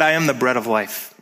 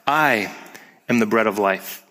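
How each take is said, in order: First: The sentence is spoken at a fast pace. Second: The sentence is spoken at a slow pace. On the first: The speaker calls it wrong. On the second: The speaker calls it right.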